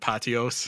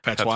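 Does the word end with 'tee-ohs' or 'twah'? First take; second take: tee-ohs; twah. First: The word ends with a 'tee-ohs' sound. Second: The word ends with a 'twah' sound. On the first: The speaker calls it wrong. "I can't pronounce anything" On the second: The speaker calls it right. "There you go"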